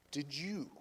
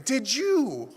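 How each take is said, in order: First: God's quiet question. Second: Loud, high, forceful question; emphatic rebuke. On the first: The Lord answering the angry driver, quietly. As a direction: say it softly and let it land. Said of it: "that's when the Lord said". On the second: Preacher repeating the Lord's two words, emphatically. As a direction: drive the two words home to the room. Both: Retold or imitated.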